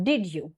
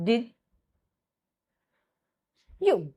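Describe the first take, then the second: First: DID YOU blended as did-joo; low, joined "Did you"; assimilated sounds. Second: DID, long pause, then YOU; slow teacher's split of "Did you"; sound by sound demo. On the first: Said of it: "it gives you this". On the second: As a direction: separate "Did" and "you" completely. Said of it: "Like it becomes". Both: Shown as a demonstration.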